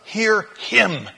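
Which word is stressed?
him. The stress falls on the word him. Listen to this one, not to yourself. "change the emphasis"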